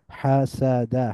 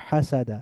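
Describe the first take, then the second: First: হাসাদা slowly as ha, sa, da; syllable by syllable. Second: হাসাদা as one joined word, ha-sa-da; blended together. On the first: Teacher breaking down the word, হাসাদা syllable by syllable. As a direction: split হাসাদা into three drawn-out syllables. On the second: Teacher reading joined-up, হাসাদা blended into one word. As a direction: run হাসাদা together with a fall. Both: Shown as a demonstration. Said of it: "একটু মিলিয়ে মিলিয়ে পড়ব".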